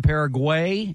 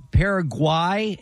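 First: "Paraguay" ending in "gway"; alternate pronunciation. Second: "Paraguay" ending in a long-i sound, like "gwhy"; alternate pronunciation. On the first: TV host showing Buck another pronunciation, "Paraguay" ending like "way". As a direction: say "Paraguay" to rhyme with "way". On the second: TV host showing Buck another pronunciation, "Paraguay" ending like "why". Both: Shown as a demonstration. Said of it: "there's different pronunciations".

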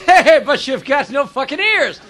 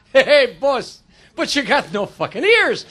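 First: Lightly voiced Irish accent, drawn out; hint of a slow Irish accent; Irish guy. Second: Lightly voiced Italian accent, drawn out; hint of a slow Italian accent; Italian guy. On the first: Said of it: "The Irish guy says". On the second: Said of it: "The Italian guy says".

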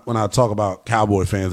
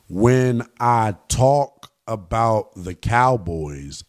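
First: Said in the usual way. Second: Painfully slow, low and deliberate; mock-patient, word by word; very slowly. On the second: Shown as a demonstration. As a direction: spell it out slowly for slow listeners. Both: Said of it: "I'm going to speak very slowly".

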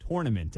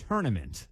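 First: "tournament" as "TORE-nament"; abandoned pronunciation. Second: "tournament" as "TURN-ament"; low, set-apart "TUR-nament"; adopted pronunciation. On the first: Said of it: "I don't say tournament anymore". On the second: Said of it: "I have said". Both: Shown as a demonstration.

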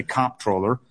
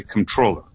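First: COMP-troller, hit hard at the start; "comptroller" with strong COMP, lighter troller; stress on first syllable. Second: "controller" with weight on TROLL; con-TROLL-er, the other way of saying it; stress on second syllable. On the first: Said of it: "I hit it hard on the". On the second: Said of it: "on the first syllable". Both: Shown as a demonstration.

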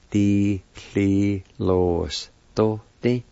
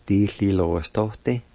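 First: Slow teaching pronunciation, syllables set apart. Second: Said in the usual way. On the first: Shown as a demonstration. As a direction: break the word into slow, separate syllables. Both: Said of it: "is pronounced like this".

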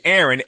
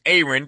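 First: "Aaron" said the common way, as AIR-un; usual Aaron pronunciation. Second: "Aaron" said as AY-run; name's own pronunciation. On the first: Host reading the guest's name as spelled, "Aaron" as AIR-un. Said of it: "it's spelled like Aaron". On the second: Host showing how the guest's name is pronounced, "Aaron" as AY-run. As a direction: open "Aaron" on a long A, AY-run. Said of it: "pronounced Aaron". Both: Shown as a demonstration.

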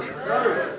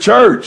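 First: Whispered echo, no voice. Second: Said in the usual way. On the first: Shown as a demonstration. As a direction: breathe the word out softly. Echoed church, breathed out.

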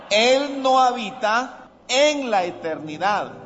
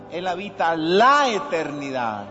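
First: "en" punched higher, the wrong version; stress on en. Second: "la" leaned on, no "en", the right version; stress on la. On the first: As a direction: stress the word "en" as the mistake. (acento fuerte en "en", versión equivocada) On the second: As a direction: stress "la" to correct it. (acento en "la", versión correcta) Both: Shown as a demonstration. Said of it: "cuidado a las palabras".

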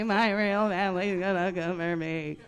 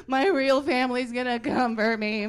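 First: Imitating a scared kid, loud but at normal pitch; panicked whine. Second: Imitating a kid's high, loud panic; panicked wail. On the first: Little sister repeating her fear, loud whine. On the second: Little sister panicking she's adopted, mock wail. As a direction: freak out like a scared little girl, louder and higher. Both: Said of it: "She started freaking out".

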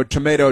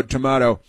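First: "Tomato" with the vowel as in "may", tuh-MAY-toh; tomato said the common way. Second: "tomato" with a broad ah vowel, tuh-MAH-toh; tomato said the posh way. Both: Retold or imitated. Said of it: "and then she says".

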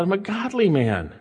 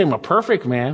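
First: Godly leaned on, falling to a close; stress on godly. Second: Said in the usual way. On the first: Shown as a demonstration. Preacher contrasting David's claim, stress on godly. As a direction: hit the word godly, not perfect. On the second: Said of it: "He doesn't say".

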